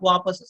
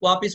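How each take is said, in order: First: The second vowel is an 'a' sound. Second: The second vowel is an 'i' sound. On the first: The speaker calls it right. "वापस सही शब्द है" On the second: The speaker calls it wrong. "वापिस में ई हमने जोड़ लिया"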